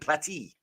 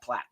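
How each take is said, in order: First: The surname is said with two syllables. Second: The surname is said with one syllable. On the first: The speaker calls it right. "So it's Kentley Platy" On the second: The speaker calls it wrong. "not Platt"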